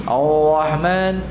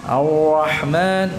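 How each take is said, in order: The two takes are said the same way.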